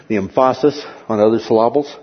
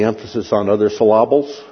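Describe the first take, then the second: First: "emphasis" as em-FAH-sis, "syllables" as suh-LAH-bles; misplaced syllable stress. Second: "syllables" as suh-LAH-bles, stressed on the middle; shifted syllable stress. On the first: Lecturer repeating the joke, "emphasis" and "syllables" both stressed mid-word. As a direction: quickly hit the middle of both "emphasis" and "syllables". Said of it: "with the emphasis on other syllables". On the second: Lecturer joking about pronunciation, "syllables" stressed on the wrong middle syllable. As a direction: keep "emphasis" normal, move the stress in "syllables" to LAH.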